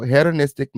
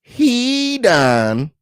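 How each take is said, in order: First: "hedonistic" with a short e, as in "head"; "hedonistic" said with HED as first syllable; mispronounced word. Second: "hedonistic" with a long HEE, high and loud; "hedonistic" slowly broken up, starting like "heed"; corrected pronunciation. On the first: Real, not acted. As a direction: say "hedonistic" starting like "head-uh-nistic". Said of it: "Y'all just letting me pronounce them wrong". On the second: Shown as a demonstration. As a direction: stretch "hedonistic" into a slow HEE-dun ... istic. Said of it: "letting me pronounce them wrong. It's".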